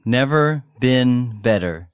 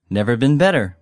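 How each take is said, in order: First: Slow, careful teacher's model; slowly. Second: Said in the usual way. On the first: Shown as a demonstration. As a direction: stretch each word for learners. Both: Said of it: "take a look at the vocabulary".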